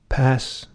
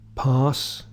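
First: It is said in an American accent. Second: It is said in a British RP accent. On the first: "I'll read those with American pronunciation" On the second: "where I have the same vowel in palm, start and bath"

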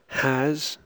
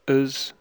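First: The word has a full, clear vowel. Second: The word has a short, reduced vowel. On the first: "I'll read the strong and the weak form" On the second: "The weak form before consonants"

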